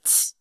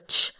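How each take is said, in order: First: A softer ch with the tongue low, lips spread. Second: A plain English ch sound with the tongue raised. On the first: "put the end of your tongue at the behind the bottom of your teeth and make that same sound and widen your mouth" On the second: "regular ch"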